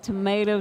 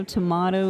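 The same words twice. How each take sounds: First: "tomato" said as to-MAY-to; "tomato" with the American ay vowel /tʰəmeɪtoʊ/; tomato with long a. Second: "tomato" said as to-MAH-to; "tomato" with the British ah vowel /tʰəmɑtoʊ/; tomato with broad a. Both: Shown as a demonstration. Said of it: "It's like tomato".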